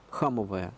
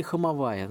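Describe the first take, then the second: First: Хамовая stressed on ХА, the first syllable. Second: Хамовая stressed on the second А, хамовАя. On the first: Historian gives the street's old name, Хамовая stressed on ХА. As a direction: hit the opening ХА of Хамовая. Compares two possible stress placements. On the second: Historian offers likelier old pronunciation, Хамовая stressed as хамовАя. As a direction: move the stress to the penultimate syllable: хамовАя. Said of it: "ударение ставили на букву А, на вторую букву А". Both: Shown as a demonstration.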